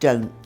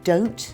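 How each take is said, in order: First: The final T sound is dropped. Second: The final T sound is clearly pronounced. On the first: "we say don't" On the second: "instead of saying don't"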